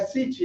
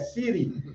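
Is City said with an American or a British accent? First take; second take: British; American. First: City is said with a British accent. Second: City is said with an American accent. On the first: The speaker calls it wrong. "não é City" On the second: The speaker calls it right. "é City"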